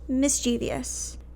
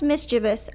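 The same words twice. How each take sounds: First: The word is said with four syllables. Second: The word is said with three syllables. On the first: This matches the username's spelling. "So I'm going to be pronouncing it as mischievous" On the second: This is the standard dictionary form. "It's pronounced mischievous"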